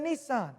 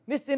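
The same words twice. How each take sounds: First: It is said the American way. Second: It is said the British way. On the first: "instead of" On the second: "You say"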